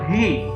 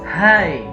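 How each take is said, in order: First: The vowel sounds like 'ee'. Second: The vowel sounds like 'eye'. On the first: The speaker calls it wrong. "masih saja kita temukan ada yang mengatakan he ya. This is wrong" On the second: The speaker calls it right. "Disempurnakan dengan kata-kata hi ya"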